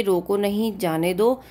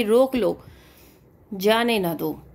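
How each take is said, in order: First: "रोको नहीं" together, then "जाने दो"; brief break after नहीं before जाने दो; group नहीं with रोको, then say जाने दो; pause after नहीं. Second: "रोक लो" falling, a clear stop, "जाने ना दो"; pause after लो. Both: Shown as a demonstration. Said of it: "अलग-अलग जगह रुके".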